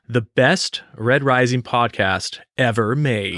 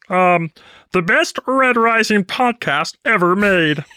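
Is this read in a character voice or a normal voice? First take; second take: normal voice; character voice. First: It is read in the speaker's normal voice. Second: It is read in a put-on Kermit-style character voice.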